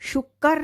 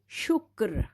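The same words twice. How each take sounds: First: The middle consonant is stressed with a vowel. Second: The middle consonant is touched lightly, unstressed. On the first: The speaker calls it wrong. "शुक्र नहीं पढ़ेंगे" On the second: The speaker calls it right. "उसकी sound जो होगी वो हल्की होगी काफ की"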